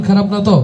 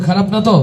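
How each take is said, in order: Both takes have the same delivery.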